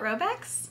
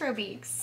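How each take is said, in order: First: The second vowel is a short e sound. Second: The second vowel is a long ee sound. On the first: "I feel like it's a short vowel" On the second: "it's not E E"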